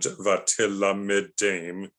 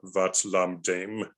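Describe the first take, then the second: First: Short vowels are voiced between the consonants. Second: The consonants run together without those vowels. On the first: The speaker calls it right. "you should pronounce it as" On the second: The speaker calls it wrong. "instead of"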